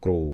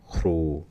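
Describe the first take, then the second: First: The first consonant is voiced. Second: The first consonant is voiceless.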